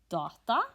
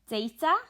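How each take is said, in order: First: It has a Norwegian pronunciation. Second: It has an English pronunciation.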